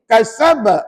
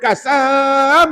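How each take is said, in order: First: The word is read with a clipped short sound. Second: The word is read with a drawn-out long sound. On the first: The speaker calls it right. "Dia kena begini" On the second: The speaker calls it wrong. "jangan baca panjang. Jangan kasab, eh, tak boleh, salah bacaan"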